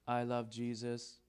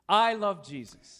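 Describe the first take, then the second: First: It is said flatly, with no emotion. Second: It is said with lively enthusiasm and intonation. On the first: It does not sound sincere. The speaker calls it wrong. "Lifeless, no emotion" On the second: It sounds sincere. The speaker calls it right. "More enthusiasm"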